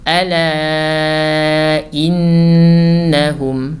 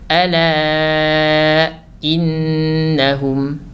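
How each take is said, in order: First: The glottal stop is single and normal. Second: The glottal stop is doubled and held. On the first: The speaker calls it right. "akan tetapi kita baca normal saja" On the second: The speaker calls it wrong. "hati-hati kita mentasydidkan huruf hamzah di situ. Seperti ini"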